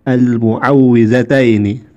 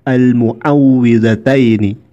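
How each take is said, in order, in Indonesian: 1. Kata itu diawali dengan mu dan ada w ganda. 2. Kata itu diawali dengan mu dan ada w ganda.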